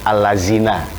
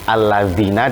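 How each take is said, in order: First: The middle consonant is a plain 'z' sound. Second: The middle consonant is a soft 'th' sound. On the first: The speaker calls it wrong. "dibaca allazina" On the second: The speaker calls it right. "seperti contoh alladzina"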